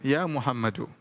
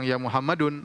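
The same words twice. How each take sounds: First: "Muhammadu" ending on a short -u, no n; correct ending. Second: "Muhammadun" said with the nunation -un at the end; wrong ending. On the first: A teacher gives the correct form, "Muhammadu" without -n. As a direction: drop the n: "Muhammadu". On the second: A teacher shows the wrong form, "Muhammadun" with -un. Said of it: "Kita tidak bilang". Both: Shown as a demonstration.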